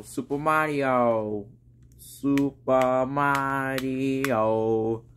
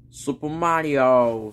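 First: Slow soft drawn-out Super Mario; funny voice. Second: Said in the usual way. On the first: Pretend. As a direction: stretch it out in a silly voice. Repeats name in a strange voice.

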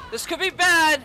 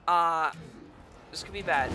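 First: Alarmed exclamation. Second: Low, soft uneasy murmur; worried mutter. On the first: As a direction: say it again as real panic sets in. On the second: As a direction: say it to yourself, half afraid. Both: Real, not acted. Boss recovers faster than expected.

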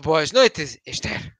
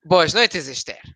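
First: Boas noites spoken as a careful rehearsed greeting. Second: "Boas noites" with the tune falling at the end; falling intonation. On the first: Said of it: "Acórdate da entoación". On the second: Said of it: "é para baixo". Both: Shown as a demonstration.

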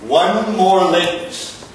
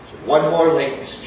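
First: Slow, louder, every word weighed; emphatic warning. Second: Said in the usual way. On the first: Acted. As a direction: spell out the threat. Boss repeats warning louder.

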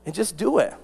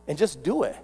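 No difference in how they are said.

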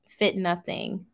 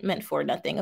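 First: "fit nothing" read out as written, the word "fit" said plainly; misread comment. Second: "for nothing" said low and soft as the fix; gently corrects to "meant for nothing"; corrected reading. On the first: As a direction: reads "fit nothing" exactly as typed, a bit puzzled. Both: Shown as a demonstration. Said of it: "I think you meant for nothing".

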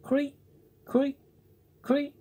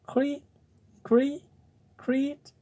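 First: High squeaky creak from the wall; small insect creaking high; cricket creak. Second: High squeaky dying creak; a last thin cricket creak, high-pitched; cricket's cry. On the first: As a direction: call out high and thin like a cricket. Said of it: "someone in the room saying". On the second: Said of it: "had scarcely time to cry". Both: Acted.

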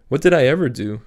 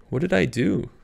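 First: "did" punched louder, falling at the end; stress on did. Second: "I" stressed with a high rising tune. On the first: Cap repeating the question, stress on "did" falling. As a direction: lean on "did", then let it drop. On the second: Cap asking herself, rising stress on "I". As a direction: lift "I" into a bewildered question. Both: Acted. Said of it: "It was a silly question".

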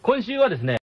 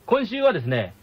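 No difference in how they are said.

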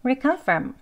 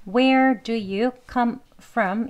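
First: "Where do you" squeezed short before "come from"; quick, reduced "Where do you", higher pitch; two-word blur. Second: Slow, word-by-word "Where do you come from"; unreduced, deliberate "Where do you come from"; careful full form. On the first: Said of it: "두 단어처럼 발음하는 것 같이". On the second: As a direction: spell out "Where do you come from" in separate words. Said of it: "빠르게 약하게 발음하는 게 또". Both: Shown as a demonstration.

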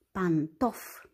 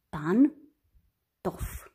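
First: Said in the usual way. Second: "Pantof" in two separated syllables, pan - tof; despărțit în silabe. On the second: Shown as a demonstration. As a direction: split "Pantof" with a long gap after pan. („Pantof” rostit rar, pe silabe: pan - tof) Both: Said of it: "Despărțim în".

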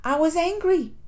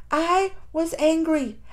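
First: Said in the usual way. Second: "I was angry" drawn out slowly, each word weighted; slow emphatic repeat. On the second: Real, not acted. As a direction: repeat it slowly to drive it home.

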